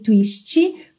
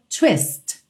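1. A palavra termina com um som de vogal acrescentado. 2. A palavra termina bruscamente na consoante. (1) "a gente tem esse costume de colocar um som de vogal depois das consoantes" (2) "essa consoante está pintada de vermelho para que você pare"

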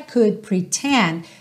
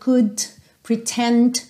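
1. Os sons finais do D são quase inaudíveis. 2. Os sons finais do D são claramente pronunciados. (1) "Preste atenção como esses D's quase não aparecem" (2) "bem marcadinho"

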